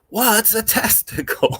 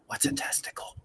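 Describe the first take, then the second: First: It is shouted at full volume. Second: It is said at a normal, soft volume.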